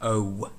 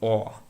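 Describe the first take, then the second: First: The vowel glides into a w sound. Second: The vowel stays pure with no glide. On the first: "we almost have O and W put together" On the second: "You don't pronounce a W or a W sound at the end of it"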